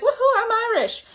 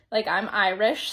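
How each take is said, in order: First: High, cheering "Woohoo, I'm Irish" with a laugh; mock party cheer. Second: Said in the usual way. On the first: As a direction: playfully whoop "Woohoo" like on Saint Patrick's Day. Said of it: "of course I'm gonna be like". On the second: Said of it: "when Saint Patrick's Day comes up".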